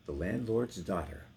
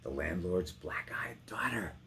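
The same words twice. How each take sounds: First: Said in the usual way. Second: Hushed aside. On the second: Acted. Actor reading Bess's description, hushed and secretive. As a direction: lean in and breathe it like a secret. Whispered repeat in poem.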